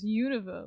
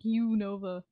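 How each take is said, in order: First: The name is said as one joined word. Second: The name is split into two separate parts. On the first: "I've always pronounced it as Unova, like I combine it" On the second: "so it's not like Unova"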